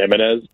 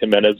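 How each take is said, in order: First: The first consonant sounds soft. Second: The first consonant sounds hard. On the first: The speaker calls it right. "it's supposed to be more a softer Jimenez" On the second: The speaker calls it wrong. "I'd probably say Jimenez more than I should"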